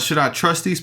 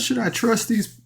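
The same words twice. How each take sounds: First: It is said in the speaker's normal voice. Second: It is said in a put-on character voice.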